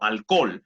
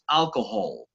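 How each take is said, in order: First: The middle h sound is silent. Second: The middle h sound is softly pronounced. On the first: "la H en español no suena" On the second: "en inglés sí pronunciamos esa H como la J suave"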